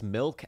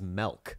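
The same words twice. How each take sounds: First: The word has a standard vowel. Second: The word has a Pacific Northwest vowel. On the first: "They pronounce milk as" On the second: "my least favorite regional pronunciation is in the Pacific Northwest"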